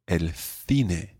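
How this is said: Spain's accent: the c sounds like th.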